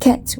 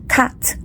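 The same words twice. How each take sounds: First: The vowel sounds close to 'e'. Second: The vowel sounds close to 'a'. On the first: "A is close to e or a" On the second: "A is close to e or a"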